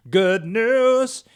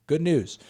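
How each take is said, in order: First: Much higher and louder burst of joy; excited. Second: Said in the usual way. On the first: Real, not acted. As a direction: cheer it out.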